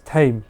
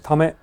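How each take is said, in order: First: It sounds like one syllable, rhyming with 'lame'. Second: It sounds like two syllables, rhyming with 'dumb it'. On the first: "but it's tame, right?" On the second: "like dumb it"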